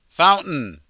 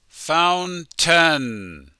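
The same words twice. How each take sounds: First: The word is said quickly and reduced. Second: The word is said slowly and carefully. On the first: "when American people speak really quickly"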